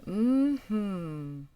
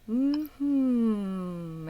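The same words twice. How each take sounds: First: Long drawn hummed mm-hmm; demonstrated hum. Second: Lengthened hum buzzing at the lips; slower hum. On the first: Coach shows student the exercise, easy hummed mm-hmm. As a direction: hum an mm-hmm at usual pitch. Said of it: "I want you to say". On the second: Coach models feeling lip vibrations, slow hummed mm-hmm. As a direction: stretch the hummed mm-hmm slowly. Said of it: "even slower". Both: Shown as a demonstration.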